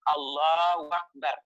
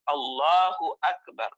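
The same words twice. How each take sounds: First: The hu syllable is weak and unclear. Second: The hu syllable is pronounced clearly. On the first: The speaker calls it wrong. "Jangan sampai nanti kita membacanya" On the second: The speaker calls it right. "Ini harus diperjelas"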